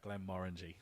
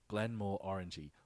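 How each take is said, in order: First: The middle does not sound like 'more orangey'. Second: The middle sounds like 'more orangey'. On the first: The speaker calls it right. "So it's uh, Glenmorangie" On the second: The speaker calls it wrong. "he's going Glenmore Orangey, more on the orange"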